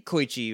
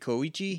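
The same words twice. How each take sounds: First: The vowels are run together, not each pronounced. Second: Every letter is pronounced separately. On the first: "I say Koichi" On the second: "in Japanese you pronounce every letter"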